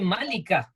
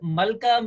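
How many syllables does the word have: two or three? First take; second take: three; two. First: The word is said in three syllables. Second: The word is said in two syllables. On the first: The speaker calls it right. "It should be Malika" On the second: The speaker calls it wrong. "we pronounce it wrong in, in Urdu"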